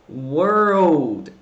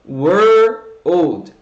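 First: The word is said quickly as one unit. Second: The word is said slowly in two parts. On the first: "E aí vai juntando isso, vai falando mais rápido" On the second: "vamos dividir o world em dois sons"

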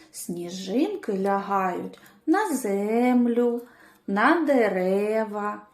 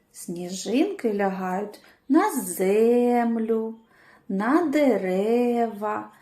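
The two takes are said the same way.

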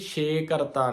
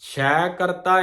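First: The first word has a closed e vowel. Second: The first word has an open ai vowel. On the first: The speaker calls it wrong. "ਛੇ ਕਰਤਾ ਨਹੀਂ ਹੈ" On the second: The speaker calls it right. "ਛੈ ਕਰਤਾ ਆ ਸੰਗਤ ਜੀ"

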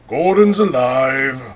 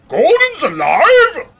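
First: It is said in a plain, normal voice. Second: It is said in a big, booming voice.

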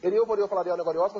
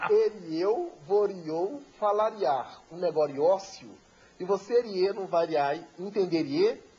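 First: The sentence is spoken at a quick pace. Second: The sentence is spoken slowly and deliberately.

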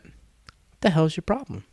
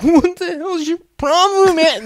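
First: It is said in a cool, tough way. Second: It is said in an upset, emotional way.

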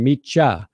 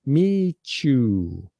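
First: The second word is reduced to 'ya'. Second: The t blends into a 'ch', as 'meechu'. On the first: "And I can also say, like Julio wrote in, meet ya" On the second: "which is like M-E-E-C-H-U. I'm not hitting that T because I'm condensing my language"

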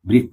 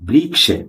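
First: The final cluster sounds like a doubled kh. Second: The final cluster sounds like k followed by sh. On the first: This is the everyday Bengali way of saying it. "আমরা বাঙালিরা কি উচ্চারণ করি?" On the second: This follows the written letters. "ক যোগ মূর্ধন্য ষ, এর না এ হবে উচ্চারণটা কি?"

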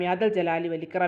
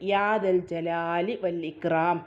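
First: The sounds are slurred and run together. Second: Each sound is articulated clearly and distinctly. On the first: The speaker calls it wrong. "അങ്ങനെയല്ല കേട്ടോ" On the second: The speaker calls it right. "അക്ഷരസ്ഫുടതയോട് കൂടിയിട്ട്"

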